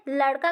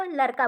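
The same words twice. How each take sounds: First: Said in the usual way. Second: लड़का said with a plain r for the ड़, "larka"; lisping mispronunciation. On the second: Shown as a demonstration. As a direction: swap the flap in लड़का for an r. (लड़का में ड़ की जगह र बोलकर अशुद्ध उच्चारण) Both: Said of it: "अशुद्ध उच्चारण होता है".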